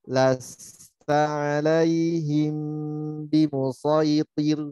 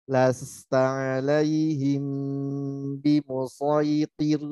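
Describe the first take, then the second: The two takes are said the same way.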